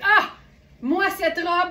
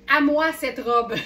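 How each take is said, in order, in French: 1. Un 'ah' exclamé est suivi d'une pause. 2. Ça s'enchaîne sans pause. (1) "c'est une question d'intonation" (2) "moi j'ai lu à moi cette robe"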